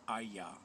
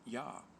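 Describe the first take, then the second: First: The word begins with an I sound. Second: The word begins with a Y sound. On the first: The speaker calls it right. "it's Ayah, like iron" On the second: The speaker calls it wrong. "Yah isn't Yah"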